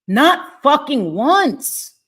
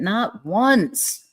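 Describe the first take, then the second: First: Each word of "Not fucking once" punched slow, high and loud; "Not fucking once" spaced out and yelled; furious emphasis. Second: Said in the usual way. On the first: Real, not acted. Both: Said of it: "I got a little animated".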